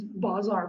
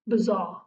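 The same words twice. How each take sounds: First: "bazaar" with an open ah in both syllables; long-a pronunciation. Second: "Bazaar" with a short, reduced first vowel; English pronunciation. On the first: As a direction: say "bazaar" as bah-ZAR. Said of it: "it's not like B I Z A R". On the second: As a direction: say "Bazaar" as buh-ZAR. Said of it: "How do you guys pronounce it in English?". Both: Shown as a demonstration.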